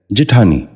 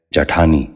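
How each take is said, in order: First: جٹھانی said "ji-thaani", with i after the j; short i in the first syllable of جٹھانی; correct pronunciation. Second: جٹھانی said "ja-thaani", with a after the j; short a in the first syllable of جٹھانی; wrong pronunciation. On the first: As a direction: say جٹھانی as "ji-THAA-ni". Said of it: "درست تلفظ ہے". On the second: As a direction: say جٹھانی as "ja-THAA-ni". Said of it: "غلط تلفظ ہے". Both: Shown as a demonstration.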